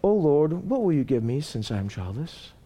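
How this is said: It sounds falsely pious and polite.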